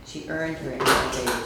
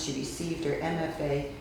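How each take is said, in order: First: EARNED said louder, as a correction; stress on EARNED. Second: Said in the usual way. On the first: Real, not acted. Host correcting the written bio, stress on EARNED. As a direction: lean on "earned" to correct the word. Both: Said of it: "it should say".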